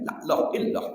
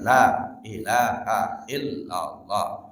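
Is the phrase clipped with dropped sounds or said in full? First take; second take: clipped; full. First: Sounds are dropped, giving a clipped phrase. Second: Every sound is pronounced in full. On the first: The speaker calls it wrong. "sampai hilang hurufnya" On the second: The speaker calls it right. "Cobalah yang benar"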